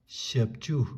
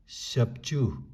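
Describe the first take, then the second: The two takes are said the same way.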